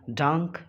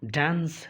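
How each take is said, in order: First: The word ends with a k sound. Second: The word ends with an s sound. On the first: The speaker calls it wrong. "डांक या डैंक ये गलत है" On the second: The speaker calls it right. "इसलिए ये डांस है"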